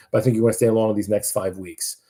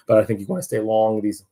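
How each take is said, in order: First: Said in the usual way. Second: Real accidental pubescent voice crack; voice cracking upward. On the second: Real, not acted. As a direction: voice jumps up mid-sentence. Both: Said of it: "my voice went up like Peter Brady".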